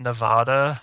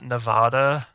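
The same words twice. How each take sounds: First: It uses the pronunciation commonly heard on TV. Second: It uses the pronunciation commonly heard on TV.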